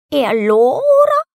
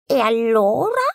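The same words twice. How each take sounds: First: High, loud, slow hen voice; a hen puffed up and scolding. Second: A little higher cat voice; a cat starting a sneer. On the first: Hen scolds the duckling, high and loud. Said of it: "la gallina gli chiese ancora". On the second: Cat sneers at the duckling, lightly voiced. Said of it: "lo rispose". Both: A narrator's reading.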